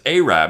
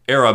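First: The word rhymes with Ahab. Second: The word does not rhyme with Ahab.

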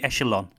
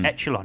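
First: The ch is pronounced with a softer sound. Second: The ch is pronounced with a harder sound. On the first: The speaker calls it right. "Is it a softer sort of ch? ... It should be echelon" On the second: The speaker calls it wrong. "I always say echelon"

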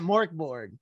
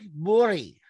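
First: The word ends with a hard g sound. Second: The word ends with a y sound. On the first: The speaker calls it wrong. "I'm just saying Markborg" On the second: The speaker calls it right. "the G at the end of the Borg is pronounced as a Y"

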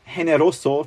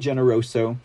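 First: The name is said with a Spanish pronunciation. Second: The name is said with a non-Spanish pronunciation.

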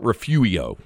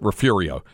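First: No R sound is heard in the middle. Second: An R sound is heard in the middle. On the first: This version was given in a pronunciation guide. The speaker calls it wrong. "It's a silent R" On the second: This is how the local community says it. The speaker calls it right. "everybody I've ever talked to calls it Refurio"

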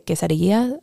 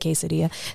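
First: It has a Spanish-style pronunciation. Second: It has an American English pronunciation. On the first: This is the original, proper form. "I don't say quesadilla" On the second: This is the everyday local form. "I say it as the American lexicon is"

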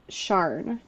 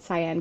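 First: The name begins with a 'sh' sound. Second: The name begins with an 's' sound. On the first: The speaker calls it right. "I listened to it like four times and I think it's Sharn" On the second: The speaker calls it wrong. "I posted a video today and said Cyan Gilbert"

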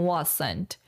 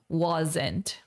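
First: The middle consonant is a hissing S sound. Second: The middle consonant is a buzzing Z sound. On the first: The speaker calls it wrong. "Tá vendo que nós temos S, wasn't? Mas a gente não fala como wasn't" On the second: The speaker calls it right. "É Z sound"

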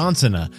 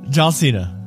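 First: It is said at a faster pace. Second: It is said at a slower pace.

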